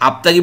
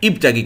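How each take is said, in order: First: The word begins with an a vowel. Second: The word begins with an i vowel. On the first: The speaker calls it wrong. "আপতাগি বলবেন না উপতাগি বলবেন?" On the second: The speaker calls it right. "আপনি বলবেন ইবতাগি। ... জের দিয়ে পড়তে হয়"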